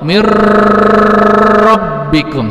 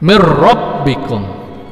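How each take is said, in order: First: The sound before the r is held long. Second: The sound before the r is kept short. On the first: The speaker calls it wrong. "jangan dipanjangkan kayak edga biguna, misalnya tiga harokat. Mirrabbikum, salah" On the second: The speaker calls it right. "Tidak dipanjangkan tiga harokat kayak idgham biguna"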